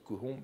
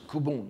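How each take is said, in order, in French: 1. La consonne du milieu est un son h. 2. La consonne du milieu est un son b. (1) "je continue de, de lire kuhon" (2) "on lit souvent en japonais aussi kubon"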